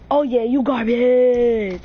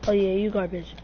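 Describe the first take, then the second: First: Loud, drawn-out trash talk; taunting yell. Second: Said in the usual way. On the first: Acted. Gamer yelling at his opponent, loud taunt. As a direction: yell it slow at the loser.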